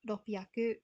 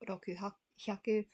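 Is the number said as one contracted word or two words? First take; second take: contracted; two words. First: It is contracted into one word with a p sound. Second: It is said as two full words with h. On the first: The speaker calls it right. "six hundred is ropyaku" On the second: The speaker calls it wrong. "not roku hyaku"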